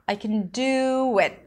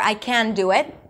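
First: The word 'can' is reduced to a weak 'kun'. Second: The word 'can' is said fully with a clear vowel. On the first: The speaker calls it right. "The word can is usually reduced to kun" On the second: The speaker calls it wrong. "It's too long"

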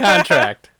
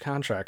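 First: The final T sound is clearly pronounced. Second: The final T sound is left off. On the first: The speaker calls it right. "You said it right" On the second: The speaker calls it wrong. "You did not say it right the first time"

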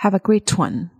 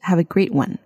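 First: British accent, with the T clearly pronounced. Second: American accent, with the T said lightly.

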